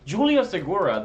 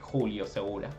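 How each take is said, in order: First: The name is said with an English accent. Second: The name is said with a Spanish accent. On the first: "with an English accent first" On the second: "now I say it with the Spanish"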